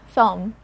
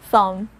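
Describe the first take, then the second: No difference in how they are said.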